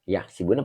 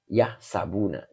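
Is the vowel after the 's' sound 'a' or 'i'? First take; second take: i; a. First: The vowel after the s is i. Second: The vowel after the s is a. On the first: The speaker calls it wrong. "Yahsibuna apa yahsabuna?" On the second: The speaker calls it right. "ini dibacanya yahsabuna"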